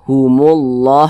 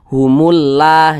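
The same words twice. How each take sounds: First: The 'llah' is pronounced heavy and full. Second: The 'llah' is pronounced light and thin. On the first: The speaker calls it right. "dibaca tebal seperti itu" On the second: The speaker calls it wrong. "Jangan dibaca humullah"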